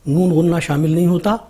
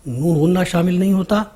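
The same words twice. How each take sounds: Both takes have the same delivery.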